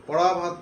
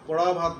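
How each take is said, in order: Both takes have the same delivery.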